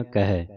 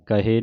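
First: ਕਹੈ with an open "ai" ending; correct pronunciation. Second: ਕਹੇ with a closed "e" ending; mispronunciation demo. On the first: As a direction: say ਕਹੈ as "ka-hai", wide final vowel. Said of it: "ਦਲਾਵਾਂ ਦੇ ਨਾਲ". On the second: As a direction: say ਕਹੇ as "ka-hay", narrow final vowel. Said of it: "ਕਹੇ ਨਹੀਂ ਕਹਿਣਾ". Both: Shown as a demonstration.

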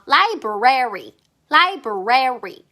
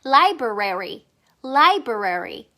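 First: Library drawn out very slowly, rary stressed, falling; slow syllable drill. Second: Library very slow, see-sawing between lai and brary; slow swinging drill. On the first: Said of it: "rary라고 해주세요". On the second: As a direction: swing library back and forth very slowly. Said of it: "왔다 갔다 해요". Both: Shown as a demonstration.

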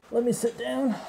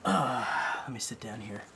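First: Talking through a face mask; muffled behind a respirator mask. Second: Said in the usual way. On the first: Real, not acted. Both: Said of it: "sorry if it sounds a little muffled".

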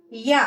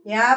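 First: యా pressed as a double yya; stressed geminate yya for యా; pressed doubled consonant. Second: Said in the usual way. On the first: Shown as a demonstration. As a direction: lean into the y of యా before the vowel. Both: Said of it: "ద్విత్వాక్షరాల్ని నొక్కి పలకాలి".

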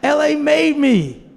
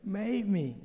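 First: Proud declaration. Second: Quiet echo. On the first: LA pride, then echoed. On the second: Echo after long pause. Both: Retold or imitated.

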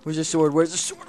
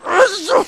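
First: Said in the usual way. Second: High frantic yelp; panicked shriek. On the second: Real, not acted. Player hunting for his sword, shrieking frantically.

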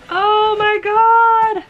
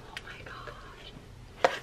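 First: High, loud, drawn-out gush; delighted squeal. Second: Breathless whispered gasp; awed whisper. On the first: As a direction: stretch it out, thrilled. Seeing the coat. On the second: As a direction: whisper it in sheer awe. Gasp on seeing the coat. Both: Real, not acted.

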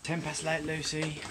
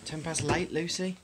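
No difference in how they are said.

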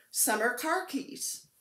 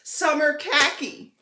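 First: "summer car keys" said slowly, car and keys split apart; slow "summer car keys", a gap between car and keys; misheard name. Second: "Summer khaki" said loudly and clearly; loud, clear "Summer khaki" with a plain khaki; corrected name. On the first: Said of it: "Don't Google summer car keys". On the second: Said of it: "What Nikki was saying is khaki". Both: Shown as a demonstration.

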